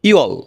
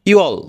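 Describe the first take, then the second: Both takes have the same delivery.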